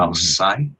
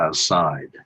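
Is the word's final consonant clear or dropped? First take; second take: dropped; clear. First: The final consonants are cut off. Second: The final consonants are pronounced fully. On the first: "kind of cutting the last consonant from each syllable" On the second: "I don't say outside"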